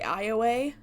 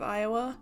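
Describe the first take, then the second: First: It uses an old-fashioned pronunciation of the name. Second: It uses the common present-day pronunciation of the name. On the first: It is how very old people say it. "some people who are super old say" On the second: It is how most people say it. "instead of"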